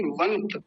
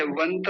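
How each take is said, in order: First: वंत said as "vant", no final vowel; correct half consonant. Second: वंत said as "vanta"; wrong full vowel. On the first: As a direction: cut वंत off on the t. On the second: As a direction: add an "a" after the त of वंत. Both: Shown as a demonstration. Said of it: "वंत नहीं, वंत".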